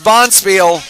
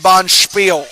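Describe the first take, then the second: First: The word is pronounced with a plain English sound. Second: The word is pronounced with a German-style sound. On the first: The speaker calls it right. "It's bond spiel" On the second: The speaker calls it wrong. "we don't say bond spiel"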